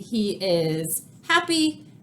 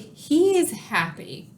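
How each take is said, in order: First: He and is are said as two full words. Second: He and is are joined as one short word. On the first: "instead of saying" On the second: "we can just say"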